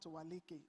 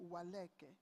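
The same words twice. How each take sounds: First: Waleke said wa-LEE-kay; wrong pronunciation. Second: Waleke said wa-LEH-kay; correct pronunciation. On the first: Host shows the audience the wrong surname, Waleke as wa-LEE-kay. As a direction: say Waleke with an "ee" in the middle. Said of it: "I'm sure that's the right pronunciation, not". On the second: Host shows the professor's surname correctly, Waleke as wa-LEH-kay. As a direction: say Waleke with an open "eh" in the middle. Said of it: "I'm sure that's the right pronunciation". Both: Shown as a demonstration.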